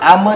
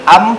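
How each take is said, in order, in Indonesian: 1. Huruf M di akhir dipantulkan dengan gema. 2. Huruf M di akhir ditahan tanpa gema. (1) "Am tidak seperti itu" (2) "am tahan"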